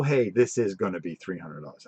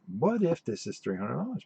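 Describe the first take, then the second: First: A plain claim falling at the end, "Hey" stressed; flat statement. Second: "What if" rising as a genuine question; asking a question. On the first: Claiming a rumor as certain, flat falling statement. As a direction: state the price as fact, not a question. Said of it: "I didn't go". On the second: Telling viewers he only asked, light questioning lilt. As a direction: wonder aloud, question not claim. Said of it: "I went". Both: Shown as a demonstration.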